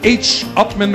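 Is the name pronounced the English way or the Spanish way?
English. The name is said with English sounds.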